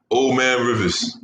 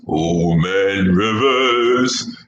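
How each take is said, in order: First: Said in the usual way. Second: Put-on low, very slow Old Man Rivers; deep voice. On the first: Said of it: "using my deep voice". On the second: Shown as a demonstration. Host booms the nickname in deep voice. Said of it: "my deep voice for something".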